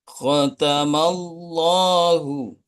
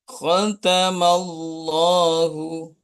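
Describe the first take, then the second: Both takes have the same delivery.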